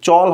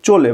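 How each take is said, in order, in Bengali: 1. শব্দটি একটি খালি ব্যঞ্জন দিয়ে শেষ হয়। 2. শব্দটি শেষে যোগ হওয়া 'o' স্বরধ্বনি দিয়ে শেষ হয়। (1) "উচ্চারণটা এখানে চল হবে না" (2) "হবে চলে, মানে চয় ওকার আসবে"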